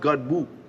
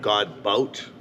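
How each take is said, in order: First: The second syllable ends in an open vowel. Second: The second syllable ends with a t sound. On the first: This is the French pronunciation the owner uses. "But it's pronounced God Boo, French" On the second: This is another way people read the spelling. "That's kind of cool too"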